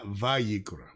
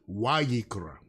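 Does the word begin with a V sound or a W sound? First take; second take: V; W. First: The word begins with a V sound. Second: The word begins with a W sound. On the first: The speaker calls it wrong. "Not Vayikra" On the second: The speaker calls it right. "So this is really Wayikra"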